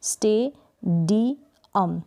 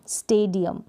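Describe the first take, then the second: First: "स्टेडियम" slowly as स्टे, डी, अम with pauses; broken into syllables. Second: Said in the usual way. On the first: Shown as a demonstration. Teacher breaking the word up, "स्टेडियम" syllable by syllable. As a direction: separate each syllable of "स्टेडियम". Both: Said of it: "जब इसको break करेंगे".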